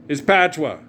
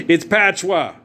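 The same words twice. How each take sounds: No difference in how they are said.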